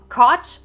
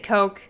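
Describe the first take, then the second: First: The vowel is short, rhyming with crotch. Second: The vowel is long, rhyming with coke. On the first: "Like crotch?" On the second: "I'll say Coke"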